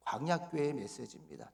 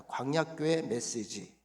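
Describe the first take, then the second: First: Said in the usual way. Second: 광야교회 메시지 drawn out slowly, each syllable spaced; slow call-and-repeat. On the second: Shown as a demonstration. Pastor leads the congregation in repeating the title, slow. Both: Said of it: "따라합시다".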